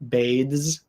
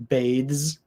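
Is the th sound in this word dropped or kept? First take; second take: kept; kept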